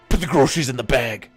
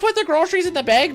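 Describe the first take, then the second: First: It is said in a bossy, commanding tone. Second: It is said in a friendly, polite tone. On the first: The cook is being ordered around rudely. "I wasn't sure if I was supposed to be like" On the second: The cook is being asked nicely. "Or if it was just supposed to be like"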